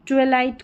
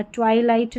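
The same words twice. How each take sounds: First: "ट्विलाइट" with a short TWI as in twin; short first vowel. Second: "ट्वाइलाइट" with TWAI rhyming with eye; long first diphthong. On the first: Teacher showing learners how to read it, short-vowel pronunciation. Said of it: "करके पढ़ना". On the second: Teacher warning learners off this reading, twai-light pronunciation. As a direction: say "ट्वाइलाइट", first syllable like "twy". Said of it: "ट्वाइलाइट नहीं". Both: Shown as a demonstration.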